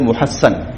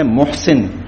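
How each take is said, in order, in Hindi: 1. नाम एक दोहरी 'ssan' आवाज़ पर खत्म होता है। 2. नाम एक छोटी 'sin' आवाज़ पर खत्म होता है। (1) "असल लफ्ज है, उसका तलफ्फुज़ है मुहस्सन" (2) "हमारे यहां लफ्ज बोला जाता है मुहसिन, लेकिन वो मुहसिन नहीं है"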